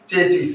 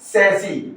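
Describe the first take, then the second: First: It begins with a ch sound. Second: It begins with an s sound. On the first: The speaker calls it wrong. "गलत करते हैं" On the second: The speaker calls it right. "Correct pronunciation होगा सैसी"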